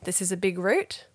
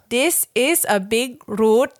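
First: It is said in standard English intonation. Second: It is said with Thai-accented English intonation. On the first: "I read it like that" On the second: "With that intonation"

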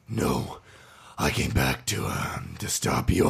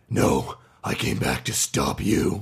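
First: It is said unsurely, with hesitation. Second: It is said confidently, without hesitation.

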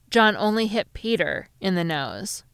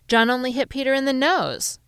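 First: The stress falls on the word Peter. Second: The stress falls on the word nose. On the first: He hit Peter and no one else. "to mean that he hit Peter and no one else" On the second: He hit Peter's nose and no other part of his body. "to mean that he hit Peter's nose and no other part of his body"

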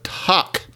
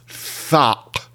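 First: The word begins with a plain t sound. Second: The word begins with a th sound. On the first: This is the form the word would be expected to have. "Instead of Tach" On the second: This is how the word is actually pronounced. "it's Thach"

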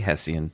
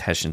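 First: The word is pronounced the way it is spelled. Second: The word is pronounced differently from its spelling. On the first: The speaker calls it wrong. "I say Hessian the way it's spelled" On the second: The speaker calls it right. "it's Hessian soldier"

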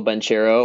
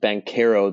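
First: The name is said with an ordinary American pronunciation. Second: The name is said with an Italian pronunciation.

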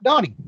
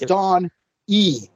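First: The name runs together as one word. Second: The name is split into two parts. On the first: The speaker calls it wrong. "Don't roll the whole name Donnie" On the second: The speaker calls it right. "It's Don E"

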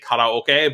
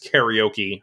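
First: The word is said with Japanese pronunciation. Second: The word is said with American English pronunciation. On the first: "I still say karaoke all the time when I'm speaking in Japanese" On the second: "calcified as karaoke in American English"

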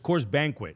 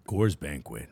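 First: It is said in a normal voice. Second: It is said in a deep ad voice.

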